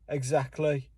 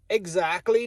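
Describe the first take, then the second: First: It is said in a Birmingham accent. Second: It is said in an Irish Derry accent. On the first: "Or in fucking Birmingham, they may say" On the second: "Or maybe in Ireland, specifically Derry, they may say"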